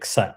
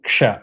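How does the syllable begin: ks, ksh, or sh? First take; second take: ks; ksh. First: It begins with a k followed by s. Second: It begins with a k followed by sh. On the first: The speaker calls it wrong. "You cannot say ksa" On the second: The speaker calls it right. "ksha அப்படின்னா அது k வரணும்"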